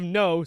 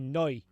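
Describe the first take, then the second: First: A plain accent, with an ordinary vowel. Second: A New Zealand accent, ending in an ee sound. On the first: "instead of no" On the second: "say noi"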